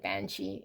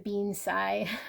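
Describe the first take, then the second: First: It is said as two syllables, 'ban-shee'. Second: It is said as three syllables, 'being sigh'. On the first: The speaker calls it right. "Totally a banshee" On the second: The speaker calls it wrong. "I was saying it wrong"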